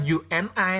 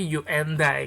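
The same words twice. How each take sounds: First: "you and I" as "yu en ai", no d; unlinked pronunciation. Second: "you and I" as "yu en-dai"; linked d pronunciation. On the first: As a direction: leave out the d in "you and I": yu-en-ai. ("you and I" dibaca "yu en ai", tanpa bunyi d) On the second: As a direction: link the d onto the last vowel of "you and I": yu-en-dai. ("you and I" dibaca "yu en dai", bunyi d disambung) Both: Shown as a demonstration. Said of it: "tapi bacanya bukan you and I".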